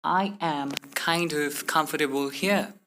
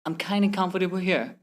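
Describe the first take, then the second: First: Slow, "kind" and "of" kept apart; word-by-word. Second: "kinda" run together as one word; merged letters. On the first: Teacher showing what not to say, word-by-word. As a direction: separate every word carefully. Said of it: "Instead of saying". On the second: Teacher giving learners the faster version, merged words. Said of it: "simply say". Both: Shown as a demonstration.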